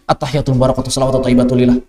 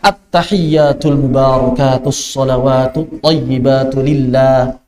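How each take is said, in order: First: The doubled consonants are said short and rushed. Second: The doubled consonants are held before release. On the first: The speaker calls it wrong. "Ini enggak ada tasydidnya, semua diberantas semua tasydidnya" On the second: The speaker calls it right.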